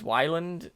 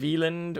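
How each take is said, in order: First: The name is said with an Americanized pronunciation. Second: The name is said with a German pronunciation. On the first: "an Americanized Wyland" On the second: "the straight up German Wieland"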